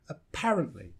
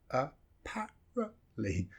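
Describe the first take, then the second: First: Said in the usual way. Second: "apparently" broken into slow syllables, schwa in first and third. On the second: Shown as a demonstration. Teacher showing where schwa comes twice, syllable by syllable. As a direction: sound out "apparently" slowly, piece by piece. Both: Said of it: "Sometimes you'll see it twice".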